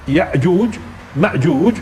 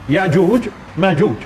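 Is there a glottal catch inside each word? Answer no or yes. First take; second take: yes; no. First: Each word has a glottal stop after the first vowel. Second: Each word has a smooth vowel without glottal stop. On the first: "في طريقتين للقراءه" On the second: "تسهيل الهمزه"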